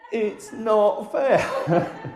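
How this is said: It is said after a sharp gasping in-breath.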